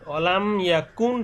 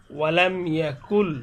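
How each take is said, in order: First: "ওয়ালাম ইয়াকুন" ending on a sounded n; original noon. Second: "ওয়ালাম ইয়াকুল" slow, ending on l in place of n; noon merged into lam. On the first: Teacher showing what the word was, n ending. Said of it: "কিন্তু ছিল". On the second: Teacher showing noon is not read, l ending. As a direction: recite "ওয়ালাম ইয়াকুল", going straight to the l. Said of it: "এখানে এই নুনটা পড়া যাবে না". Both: Shown as a demonstration.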